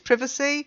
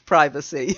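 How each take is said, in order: First: The word is said the British way. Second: The word is said the American way. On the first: "if you want to sound British, it's privacy" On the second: "If you want to be an American, it's privacy"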